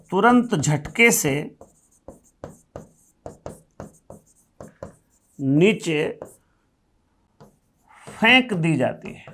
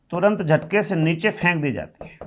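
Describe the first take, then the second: First: Slow, spaced out, word by word with long pauses; slow dictation pace. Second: Said in the usual way. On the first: Shown as a demonstration. Teacher slowly dictating the definition to students.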